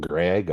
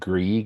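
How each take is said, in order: First: The vowel is short, like in 'leg'. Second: The vowel is long, like in 'league'. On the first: The speaker calls it wrong. "and not Greg" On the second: The speaker calls it right. "I believe it's pronounced Grieg"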